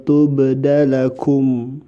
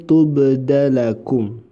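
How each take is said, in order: No difference in how they are said.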